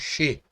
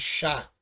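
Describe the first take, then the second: First: The first syllable has a reduced vowel. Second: The first syllable has a full a vowel. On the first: The speaker calls it right. "falamos she" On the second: The speaker calls it wrong. "Não falamos chá"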